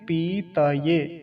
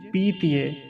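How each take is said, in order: First: The t is a full syllable before the y. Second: The t is half, clustered with the following y. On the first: The speaker calls it right. "तो पीतिये नहीं कहेंगे, क्या कहेंगे?" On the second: The speaker calls it wrong. "गलत उच्चारण कैसे करते हैं पहले वो देख लीजिए"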